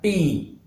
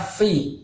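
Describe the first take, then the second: First: It begins with a p sound. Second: It begins with an f sound. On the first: The speaker calls it wrong. "bukan pi" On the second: The speaker calls it right. "Harusnya fi"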